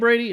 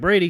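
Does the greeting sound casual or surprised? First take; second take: surprised; casual. First: The name is called out like greeting a stranger. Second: The name is called out in a plain, casual way. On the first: The speaker acts as if meeting him for the first time. The speaker calls it wrong. "I don't say it like that. Like I've never seen him before" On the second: The speaker is simply announcing his arrival. The speaker calls it right. "It's like, Brady, I'm here"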